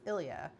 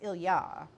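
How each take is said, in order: First: The stress is on the first syllable. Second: The stress is on the last syllable. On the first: "the name we would pronounce in English as Ilya" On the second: "the pronunciation stress is on the ya"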